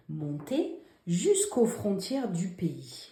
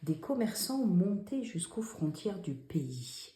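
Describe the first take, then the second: First: Slow, even reading of the corrected sentence; teacher rereading slowly; slow dictation read. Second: Hushed dictation reading; whispered dictation read. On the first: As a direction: read it slowly, word by word, for pupils to check. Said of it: "dans cette phrase". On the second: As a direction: read the sentence in a soft whisper. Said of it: "Où sont les dix fautes?". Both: Shown as a demonstration.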